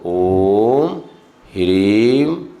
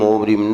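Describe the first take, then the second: First: The second word begins with an h sound. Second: The second word begins without an h sound. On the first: The speaker calls it right. "पूरा अच्छे से बोलो" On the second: The speaker calls it wrong. "ह्रीम को कई लोग रीम बोलते हैं"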